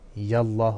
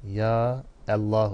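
First: The two words are run together as one. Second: The two words are said as separate words. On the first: The speaker calls it wrong. "Yallah olmaz ha" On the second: The speaker calls it right. "Ya Allah olur"

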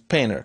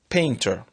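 First: The t is dropped, leaving a nasal tap. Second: The t after the n is pronounced.

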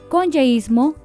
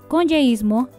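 Both takes have the same delivery.

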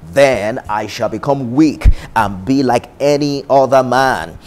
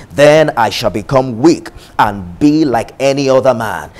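Both takes have the same delivery.

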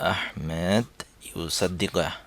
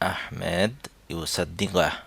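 No difference in how they are said.

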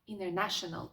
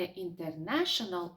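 First: The T after the N is dropped. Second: The T after the N is clearly pronounced. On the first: The speaker calls it right. "а" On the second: The speaker calls it wrong. "не"

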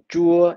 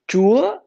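First: The pitch stays level across the syllable. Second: The pitch rises high across the syllable. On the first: It means sour. "it means sour" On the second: It means God. "it's mean God"

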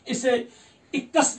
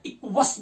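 First: The k is followed directly by the vowel. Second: The k is followed by a w sound. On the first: "इसे इक्कस भी पढ़ते हैं" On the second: "इक्वस भी पढ़ते हैं"

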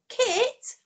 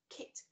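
First: It is said louder, in an excited voice. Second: It is said at a normal, quieter volume.

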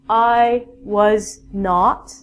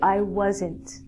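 First: The words are said in full as 'was not'. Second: The words are contracted to 'wasn't'. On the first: The speaker calls it wrong. "But we don't say that" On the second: The speaker calls it right. "we say"

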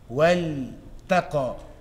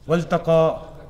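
First: The l sound is clearly and separately articulated. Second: The l sound is brushed over into the t. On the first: The speaker calls it right. "So lam is further in your mouth and ta is more towards the tip" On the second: The speaker calls it wrong. "Don't read it as Waltaqa. ... like wealth. ... don't just brush over it"

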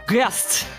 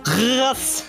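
First: It is said with an English accent. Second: It is said with an Arabic accent.

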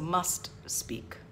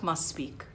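First: The final t of 'must' is clearly pronounced. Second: The final t of 'must' is dropped. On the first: The speaker calls it right. "So must speak" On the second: The speaker calls it wrong. "not must speak"

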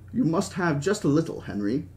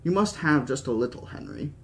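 First: It is read in the reader's plain accent. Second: It is read in a put-on British accent.

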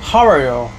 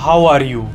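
First: It is said in a British accent. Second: It is said in an Indian accent. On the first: "British वाले बोलेंगे" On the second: "India में बोला जाता है"

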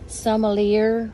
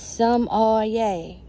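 First: The R sound is pronounced in the word. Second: The R sound is left out of the word. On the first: The speaker calls it wrong. "but that's not how you pronounce it" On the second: The speaker calls it right. "The R is silent"

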